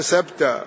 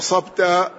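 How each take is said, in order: First: The s sound is plain and light. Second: The s sound is emphatic and heavy. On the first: A mispronunciation of the intended word. The speaker calls it wrong. "بالسين، أبدل الصاد سين" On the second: The intended word, meaning you hit the target. The speaker calls it right. "ويريد أن يقول له أصبت"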